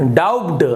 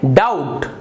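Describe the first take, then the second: First: A b sound is heard before the end. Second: No b sound is heard in the word. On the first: The speaker calls it wrong. "आप इसे ब उच्चारण करते हैं" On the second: The speaker calls it right. "बी यहां पर silent है"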